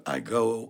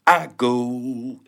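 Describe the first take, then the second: First: Said in the usual way. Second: "I" hit higher and louder, "go" lighter; stress on I. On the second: Shown as a demonstration. Contrasting rap stress with plain English, stressed I. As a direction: lean into the word "I" like a rap downbeat. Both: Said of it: "instead of I go".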